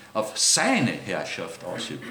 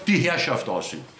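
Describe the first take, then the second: First: "seine" stressed, then a lower, slow "Herrschaft ausübt"; "seine" is the key word, the rest falls away. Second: "die" stressed, falling through "Herrschaft ausübt"; the contrast take that stresses "die". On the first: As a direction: lean hard on "seine" in "Auf seine Herrschaft ausübt". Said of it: "Merkt ihr, worauf ich Betonung lege?". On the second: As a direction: put the weight on "die", not on a possessive. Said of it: "Nicht die". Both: Shown as a demonstration.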